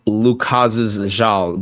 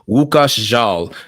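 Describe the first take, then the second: First: The name is read with English letter sounds. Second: The name is said with Polish sounds. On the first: The speaker calls it wrong. "It looks like it's spelled" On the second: The speaker calls it right. "but the pronunciation is"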